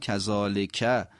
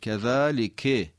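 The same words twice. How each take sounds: First: The word ends with an 'a' vowel. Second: The word ends with an 'i' vowel. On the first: The speaker calls it wrong. "معمولا کذالک بیشتر شنیده میشه" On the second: The speaker calls it right. "کسره داره"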